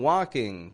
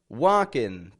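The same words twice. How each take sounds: First: The ending is a back 'ng' sound. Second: The ending is a plain 'n' sound. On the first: The speaker calls it right. "I'm saying" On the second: The speaker calls it wrong. "I'm not making a regular in. I'm not saying"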